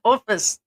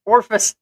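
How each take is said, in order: First: "Office" with no r, falling; plain "Office", clean vowel; correct office. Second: "orfice" with an r before the f; mispronounced orfice. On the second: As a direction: say "orfice", not office. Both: Shown as a demonstration. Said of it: "I didn't say orfice".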